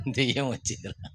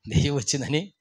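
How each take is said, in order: First: Scared hush. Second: Said in the usual way. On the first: Retold or imitated. Men fear a ghost outside.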